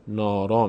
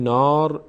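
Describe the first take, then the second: First: "نارا" ending in an open "aa"; long final vowel. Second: "نار" stopped on the "r", no final vowel; wrong clipped ending. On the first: Teacher shows correct pause form, final "aa". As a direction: carry "نارا" through to a long "raa". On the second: Teacher shows what pausing doesn't give, bare "r". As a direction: end "نار" on the bare consonant. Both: Shown as a demonstration.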